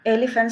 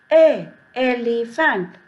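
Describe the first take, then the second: First: Said in the usual way. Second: "a", then "elephant" drawn out slowly from that first sound; sounded-out pronunciation. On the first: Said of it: "Elephant starts with E". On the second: Shown as a demonstration. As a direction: stretch "elephant" slowly after its opening vowel "a". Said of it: "we'll pronounce". ("a, elephant" धीरे-धीरे, पहली ध्वनि दिखाते हुए)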